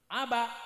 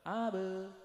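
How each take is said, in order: First: It is said with a Kalimantan accent, final sound clipped. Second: It is said with a Madurese accent, vowel becoming e. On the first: "orang Kalimantan ... suka mematikan huruf yang terakhir" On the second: "Datang orang Madura ... tambah parah"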